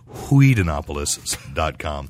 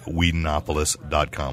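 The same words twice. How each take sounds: First: It is said in a put-on cartoon character voice. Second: It is said in the speaker's natural voice.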